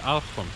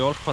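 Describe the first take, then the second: First: The first vowel sounds like 'a'. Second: The first vowel sounds like 'o'. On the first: The speaker calls it right. "is called the Alchon" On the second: The speaker calls it wrong. "what I thought was called the Olchon Island"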